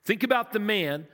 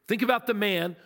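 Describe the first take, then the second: No difference in how they are said.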